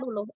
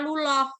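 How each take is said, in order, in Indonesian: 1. Suku kata terakhir bervokal mirip 'u'. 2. Suku kata terakhir bervokal mirip 'o'. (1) "Tapi kalau orang Malang bilangnya luluh" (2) "Kalau orang orang Lamongan bilangnya luloh"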